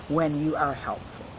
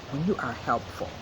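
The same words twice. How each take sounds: The two takes are said the same way.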